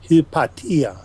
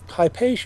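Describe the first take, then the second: First: The name is said the ancient Greek way. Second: The name is said the modern English way. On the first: It is the probable original form. "The ancient Greek pronunciation was probably something like hypatia" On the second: It is the recognizable modern form. "the common English pronunciation"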